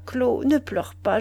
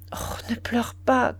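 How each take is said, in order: First: Said in the usual way. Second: Slow, whispered ne pleure pas; murmured. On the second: Acted. Duroy whispers to his crying mistress to stop weeping. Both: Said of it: "Il murmura".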